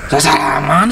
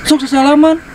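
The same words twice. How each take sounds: First: Said in the usual way. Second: Urging handshake. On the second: Real, not acted. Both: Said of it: "sia teh sasalaman".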